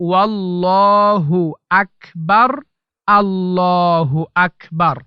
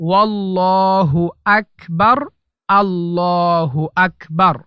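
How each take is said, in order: The two takes are said the same way.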